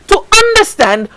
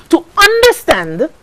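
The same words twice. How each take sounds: The two takes are said the same way.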